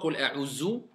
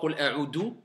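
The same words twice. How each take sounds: First: The consonant is pronounced as a z sound. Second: The consonant is pronounced as a d sound. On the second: "ils mettent le del"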